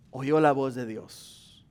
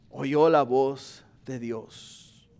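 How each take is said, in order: First: Slow, lower "oyó la voz de Dios"; slow solemn line. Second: "Oyó la voz de Dios" drawn out very slowly and lower; very slow solemn repeat. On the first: Pastor telling how Pablo heard God, slow and solemn. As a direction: say it slowly, with weight. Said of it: "repeated slower". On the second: Pastor repeating that Pablo heard God, very slow. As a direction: stretch every word, hushed awe. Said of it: "repeated even slower". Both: Shown as a demonstration.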